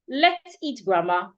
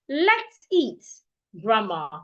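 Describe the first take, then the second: First: It is said without any pause before grandma. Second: There is a pause between eat and grandma. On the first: Grandma is the thing to be eaten. "There is no pause in between the words in the sentence" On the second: Grandma is being invited to come eat. "There is a pause in between let's eat"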